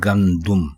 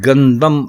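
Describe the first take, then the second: First: The second syllable has a u vowel. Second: The second syllable has an a vowel. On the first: The speaker calls it right. "दुरुस्त लफ्ज है गंदुम" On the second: The speaker calls it wrong. "गंदम बिल्कुल गलत है"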